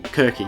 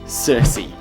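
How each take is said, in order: First: The C sounds are said as hard K sounds. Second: The C sounds are said as soft S sounds. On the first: "Would have probably been K's" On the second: "depending on how you pronounce the C's"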